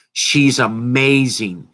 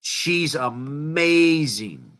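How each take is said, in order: First: Slow, firm, each word leaned on; emphatic praise. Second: Slow and hushed, drawn out. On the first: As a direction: sell it hard: She's amazing. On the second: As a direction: let it fall away in admiration. Repeats praise softly. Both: Real, not acted.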